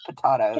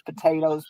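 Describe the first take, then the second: First: Potatoes with a broad "tah" vowel, po-TAH-toe; British potatoes. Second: Said in the usual way. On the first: Shown as a demonstration. Crafter toying with British words from TV, British potato pronunciation. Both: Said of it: "I catch myself saying words like they say 'em".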